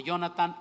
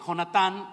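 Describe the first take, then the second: First: "Jonathan" begun with a Y sound; Y-sound pronunciation. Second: "Jonatán" with a throaty Spanish jota; Spanish J pronunciation. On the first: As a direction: say "Jonathan" as "Yonatan", no throaty jota. ("Jonathan" con sonido de ye, "Yonatan") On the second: ("Jonatán" con jota española) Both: Shown as a demonstration. Gives two versions of name.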